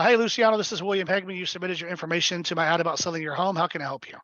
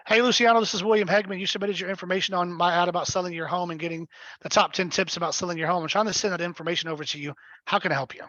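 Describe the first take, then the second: First: Quick and easy call opener; shorter version of the pitch. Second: A slightly fuller, upbeat call opener; longer version of the pitch. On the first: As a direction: keep it brief and friendly. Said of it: "Typically I would go". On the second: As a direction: give the whole friendly script. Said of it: "a longer version". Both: Shown as a demonstration.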